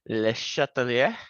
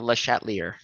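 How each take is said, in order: First: The name is said with a French-style pronunciation. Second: The name is said with an English-style pronunciation. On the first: The speaker calls it right. "I believe, pronounced Le Chatelier, ... That, that's my best" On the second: The speaker calls it wrong. "I unfortunately will probably pronounce it most likely Le Chatelier. That's probably how you most hear it"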